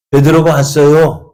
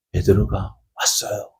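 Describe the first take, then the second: First: Louder, higher-pitched breaking news; acted girl bursting with news; excited announcement. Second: Said in the usual way. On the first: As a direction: call it out to the whole room. Girl runs in announcing Peter.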